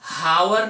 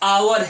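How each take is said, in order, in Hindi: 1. यह शब्द एक सुनाई देने वाली H ध्वनि से शुरू होता है। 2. यह शब्द सीधे स्वर ध्वनि से शुरू होता है। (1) "हावर नहीं होता, ये गलत है" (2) "आओ, इस तरह से हो जाएगा"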